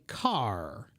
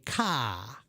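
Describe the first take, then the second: First: It is said in an Ohio American accent. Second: It is said in a South Boston accent. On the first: "in my English, in Cincinnati, Ohio, we say car" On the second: "in South Boston, they might say ka"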